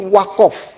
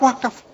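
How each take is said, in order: First: It is said with a Madurese 'o' vowel. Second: It is said with a standard Indonesian 'a' vowel.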